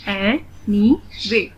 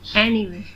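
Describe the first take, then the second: First: "anyway" very slowly in three separate beats; split into syllables. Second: Said in the usual way. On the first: Shown as a demonstration. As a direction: say "anyway" one syllable at a time. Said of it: "split in the syllables". ("anyway" का हर syllable अलग, रुक-रुककर) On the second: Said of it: "read the word".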